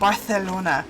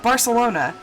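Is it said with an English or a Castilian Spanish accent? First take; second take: Castilian Spanish; English. First: It is said with a Castilian Spanish accent. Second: It is said with an ordinary English accent.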